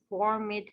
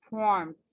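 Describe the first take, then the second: First: The ending is an extra 'ed' syllable. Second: The ending is a short 'd' sound. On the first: The speaker calls it wrong. "not formed" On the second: The speaker calls it right. "it's formed"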